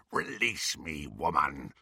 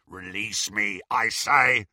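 First: Low, softer menacing growl; a beast demanding release; low werewolf growl. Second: Gruff insistent werewolf; werewolf demand. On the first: Greyback pinned before Bellatrix, low growl. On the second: Greyback to Bellatrix, gruff insistent demand. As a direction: repeat the demand like a cornered beast. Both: Acted.

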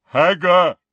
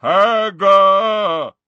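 First: Booming giant call. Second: Loud booming giant bellow. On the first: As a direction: bellow it like a huge giant. Giant insists. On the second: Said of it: "then bellowed". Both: Acted.

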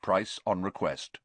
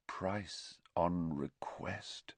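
First: Said in the usual way. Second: Drawn-out, quiet echo of the words; slow, hushed echo. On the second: A narrator's reading. Narrator echoes the advert's price line, slow and hushed. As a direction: repeat it slowly and much softer.

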